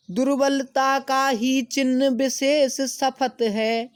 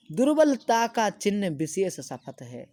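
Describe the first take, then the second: First: Slow, high, loud declaiming; slow lofty verse reading; poem recitation. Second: Said in the usual way. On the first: Acted. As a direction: chant the verse slowly to the class. Recites poem line, then explains.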